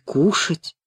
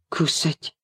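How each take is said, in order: First: The middle consonant is a hushing sh sound. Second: The middle consonant is a plain s sound. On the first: The speaker calls it right. "правильно говорить мышки и кушать" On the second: The speaker calls it wrong. "И почему кусать?"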